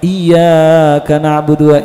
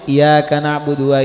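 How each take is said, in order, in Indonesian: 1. Bunyi y dibaca panjang dan ganda. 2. Bunyi y dibaca pendek dan tunggal. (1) "agak panjang" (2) "ketika dia mengucapkan iya tanpa tasydid"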